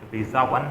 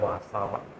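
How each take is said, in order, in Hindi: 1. पहला स्वर 'ee' जैसा सुनाई देता है, जैसे visa में। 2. पहला स्वर 'ah' जैसा सुनाई देता है, जैसे father में। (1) "वी आई एस ए वाला वीज़ा नहीं है" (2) "वासा वन मुझे बोलना चाहिए"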